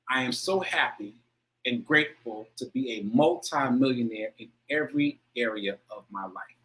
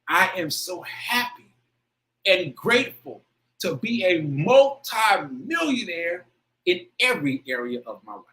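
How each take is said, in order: First: It is read plainly, without much feeling. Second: It is read with strong, heartfelt emotion.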